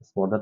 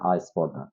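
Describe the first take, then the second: First: The word starts directly with the s sound. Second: An extra a vowel is heard before the s.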